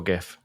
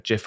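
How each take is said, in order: First: "gif" with a hard g, as in gift. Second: "gif" with a soft g, like jif. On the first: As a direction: say "gif" starting with a hard g sound. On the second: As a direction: say "gif" starting with a j sound. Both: Shown as a demonstration. Contrasts two pronunciations of gif.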